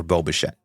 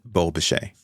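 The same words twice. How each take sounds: First: "Bo Bichette" said as bo-SHET, with a clear final t; corrected pronunciation. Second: "Bo Bichette" said as bo-SHAY, no final t; first attempt at the name. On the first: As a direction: correct yourself, landing the final t. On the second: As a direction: try the name, ending on an open "shay". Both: Real, not acted. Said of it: "Or Bo Bichette".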